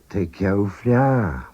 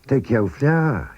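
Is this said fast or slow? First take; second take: slow; fast. First: It is said slowly. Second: It is said at normal speed. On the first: "First, slowly" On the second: "and then at normal speed"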